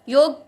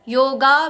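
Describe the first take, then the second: First: The word ends on a bare g sound. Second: The word ends with a long a vowel. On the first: "ग को आधा भी नहीं करना है, योग भी नहीं कहना है" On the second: "योगा भी नहीं कहना है"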